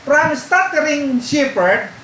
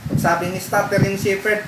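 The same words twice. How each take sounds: First: "from stuttering shepherd" pitched high, slower and louder, like a point heading; heading read out with emphasis. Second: Said in the usual way. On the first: Shown as a demonstration. Pastor announcing his second point to the congregation, raised and slow.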